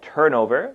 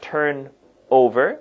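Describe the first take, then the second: First: The n links smoothly into over. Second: The two words are said separately. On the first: The speaker calls it right. "the N and the O here, they join, so it sounds like turnover" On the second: The speaker calls it wrong. "It's not turn over"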